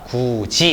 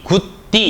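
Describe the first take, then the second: First: The middle consonant is a 'j' sound. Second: The middle consonant is a 'd' sound. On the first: The speaker calls it right. "이런 식으로 발음하는 거죠" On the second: The speaker calls it wrong. "이렇게 발음하는 것이 아니라"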